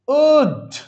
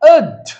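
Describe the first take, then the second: First: The word is said fully, with a clear vowel. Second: The word is said weakly, with a reduced vowel. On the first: "খুব যদি আমরা এটাকে strong ফর্মে করি তাহলে আমরা বলবো would" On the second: "উইক ফর্মে বলবো উড"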